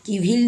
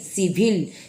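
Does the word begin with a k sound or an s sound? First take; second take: k; s. First: The word begins with a k sound. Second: The word begins with an s sound. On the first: The speaker calls it wrong. "किविल नहीं" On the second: The speaker calls it right. "सी letter के बाद आई आया है"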